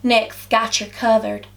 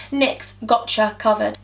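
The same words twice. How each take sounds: First: "Gotcha Covered" in a shaky attempt at American; slow American "Gotcha", like "gatcha"; attempted American accent. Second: "Gotcha Covered" in a careful English accent. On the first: Vlogger trying the product name, mock American accent. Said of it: "I can't even say it in American". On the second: Vlogger testing a product name, English accent. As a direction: say "Gotcha" with a rounded English vowel, slowly. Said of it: "You can't say that in an English accent". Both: Shown as a demonstration.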